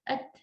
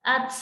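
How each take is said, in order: First: The final t ends with a light puff. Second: The final t ends with an s-like hiss. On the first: The speaker calls it right. "kita baca at" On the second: The speaker calls it wrong. "jangan ats. Ats, nah itu kadang-kadang lebay ya"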